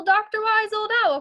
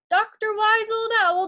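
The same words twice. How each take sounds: First: Louder, higher call, falling at the end; calling up again. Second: Louder, higher call up to the rafters. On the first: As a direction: call the sleeping owl once more. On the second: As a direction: call the owl awake. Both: Acted. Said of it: "called Lizzie".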